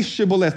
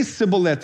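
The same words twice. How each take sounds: First: Shibboleth with a clear SH at the start; "sh" sound in shibboleth. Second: Sibboleth starting on a plain S; mispronounced sibboleth, hissed S instead of SH. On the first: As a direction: say shibboleth with a hushing "sh". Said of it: "they would say sibboleth". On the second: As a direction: say sibboleth with S in place of SH. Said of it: "they had a speech impediment". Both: Shown as a demonstration.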